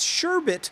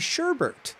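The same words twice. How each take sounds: First: The second syllable has no R sound. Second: The second syllable has an R sound. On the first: This is the usual form. "There is no R" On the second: This is the less common form. "or less commonly"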